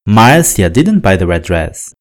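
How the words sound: The word Marcia carries the strongest stress. It was this person and not someone else. "Na primeira sentença, estou falando da Márcia"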